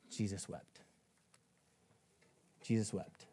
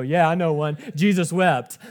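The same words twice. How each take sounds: First: Low, soft and grave, left to sink in; solemn hush. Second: Loud, pleased-with-yourself mock answer; eager joker. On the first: Real, not acted. Preacher reads the shortest verse to the church, solemn hush. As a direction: let the short verse fall quietly. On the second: Someone in a Bible circle shows off a memorized verse, jokily eager. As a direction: blurt it out as a cheeky punchline. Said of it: "And you go".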